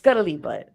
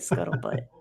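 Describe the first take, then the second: First: An 'ee' vowel is added before 'butt'. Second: No vowel is added before 'butt'. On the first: The speaker calls it wrong. "I might say this wrong" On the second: The speaker calls it right. "I know that's not it"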